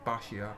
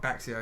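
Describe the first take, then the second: First: The middle consonant sounds like 'sh'. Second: The middle consonant sounds like 'ks'. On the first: The speaker calls it right. "it's Bashio. So I've been told" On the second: The speaker calls it wrong. "it's not Baxio"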